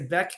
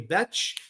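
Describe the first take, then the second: First: The name ends with a k sound. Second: The name ends with a ch sound. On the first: Some people say it this way. The speaker calls it wrong. "I've heard some people say Beck" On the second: This is the real pronunciation of the name. The speaker calls it right. "It's actually Betch"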